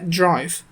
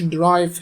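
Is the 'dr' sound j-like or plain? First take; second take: j-like; plain. First: A light j-like sound joins the d and r. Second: The d and r are said plainly together. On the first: The speaker calls it right. "وفي صوت جيم خفيفه كده بين الدي والار" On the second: The speaker calls it wrong. "هي مش drive"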